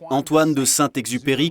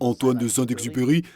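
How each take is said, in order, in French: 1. Le nom est prononcé sans accent français. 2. Le nom est prononcé avec un accent français.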